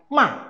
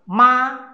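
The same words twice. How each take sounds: First: The pitch falls sharply from high. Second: The pitch stays high and level. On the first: It means to scold. "ma itu adalah marah" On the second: It means mother. "ma yang pertama adalah ibu"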